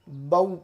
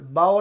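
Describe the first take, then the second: First: The vowel glides rounded like 'au'. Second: The vowel glides open like 'ao'. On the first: The speaker calls it right. "बल्कि बऊ पढ़ना है" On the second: The speaker calls it wrong. "बाओ नहीं पढ़ना"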